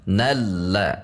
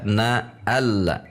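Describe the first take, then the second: First: "Nalla" as one joined word, na straight into the l; disambung. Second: "na alla" split in two with a fresh a; dipisah, salah. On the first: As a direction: glide from na into lla without a break. ("Nalla" dibaca bersambung) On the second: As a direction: break after na, restart on "alla". ("na alla" dibaca terpisah) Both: Shown as a demonstration. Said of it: "tidak dibaca na alla".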